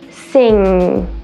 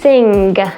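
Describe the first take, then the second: First: The ng is held long without a G. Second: A hard G is released at the end. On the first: The speaker calls it right. "holding it there and elongating that sound" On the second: The speaker calls it wrong. "they produce that G sound so it sounds like this"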